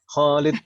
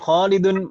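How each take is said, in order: First: The word ends on a bare final consonant. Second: The word ends with an added '-un' syllable. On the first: The reader avoids committing to a case ending. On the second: The reader commits to the full case ending.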